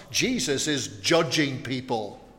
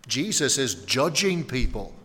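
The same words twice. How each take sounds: First: Jesus said with the main weight, the rest falling away; shocked stress on Jesus. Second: Judging said with the main weight after a long pause; weighty stress on judging. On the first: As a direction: lean on the name Jesus. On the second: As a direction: land hard on judging. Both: Real, not acted. Repeats line, shifting the stress.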